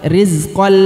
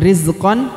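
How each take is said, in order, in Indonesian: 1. Bunyi n melebur ke l yang ditahan. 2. Bunyi n di akhir jelas diucapkan. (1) "tapi rizqal lakum" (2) "bukan rizqan"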